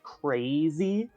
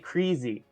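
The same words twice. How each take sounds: First: The first vowel is the usual long A sound. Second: The first vowel is not the usual long A. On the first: This is how most people in the country say it. "a lot of people in the U S say crazy. Like, they put, they, they, they do that, like, A sound" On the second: This is how people from one region say it. "I say crazy"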